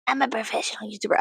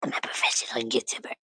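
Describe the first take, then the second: First: Said in the usual way. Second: Low, hushed whisper. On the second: Pretend. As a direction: whisper it under your breath. Same line whispered, then voiced.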